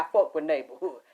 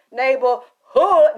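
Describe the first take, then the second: First: Said in the usual way. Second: Loud, slow, stretched shout of neighborhood; drawn-out shout. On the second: Real, not acted. Shouting neighborhood to the viewers in a long, drawn call. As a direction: bellow it out long.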